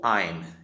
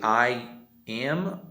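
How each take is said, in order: First: It is said as one short contracted syllable. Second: It is said as two full, separate words.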